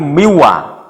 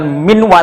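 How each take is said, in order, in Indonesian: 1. Tidak ada bunyi n sebelum w. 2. Ada bunyi n sebelum w. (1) "tapi miwa" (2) "bukan minwa"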